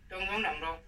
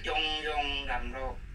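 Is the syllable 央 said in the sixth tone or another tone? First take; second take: another tone; sixth tone. First: The syllable 央 is not in the sixth tone. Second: The syllable 央 is in the sixth tone. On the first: The speaker calls it wrong. "是错" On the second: The speaker calls it right. "这个央要读第六调"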